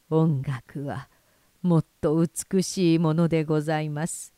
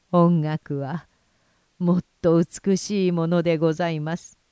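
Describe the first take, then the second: First: Put-on very old man. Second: Put-on louder, firmer old man's voice; the old master's words ringing out. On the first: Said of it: "耳元ではっきりこうささやくのを聞いた". (老人がゆっくりささやくように) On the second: 老人の言葉が再び響く. (老人の声、はっきりと強く) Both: A narrator's reading.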